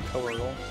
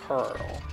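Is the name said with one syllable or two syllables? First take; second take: two; one. First: The name is said as two syllables. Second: The name is said as one syllable. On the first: "According to Japan, it's Co-Earl" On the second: "Just Curl"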